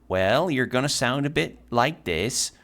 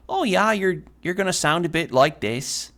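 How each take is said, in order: First: Slow, Scandinavian-tinged Minnesota accent; drawn-out North Midwest accent. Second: High-pitched Midwest accent gone Irish; botched Minnesota accent, pitched up, sounding Irish; Minnesota slipping into Irish. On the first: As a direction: stretch the vowels like a Minnesotan. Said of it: "a Minnesota accent that has the influence". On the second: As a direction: aim for Minnesota, land in lilting Irish. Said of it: "it's Irish". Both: Shown as a demonstration.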